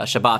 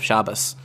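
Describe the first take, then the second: First: It is said in the modern Israeli way. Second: It is said in the older Yiddish-style way. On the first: "Israelis will say uh, Shabbat" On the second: "instead of Shabbos"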